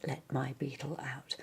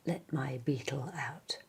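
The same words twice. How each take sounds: The two takes are said the same way.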